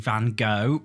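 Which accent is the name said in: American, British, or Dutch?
American. The name is said the American way. "American people say Van Gogh"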